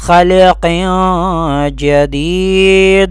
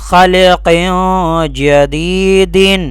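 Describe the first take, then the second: First: The last word ends with a plain 'd' sound. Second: The last word ends with a full 'din' sound. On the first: The reciter stops at this word. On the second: The reciter carries on without stopping.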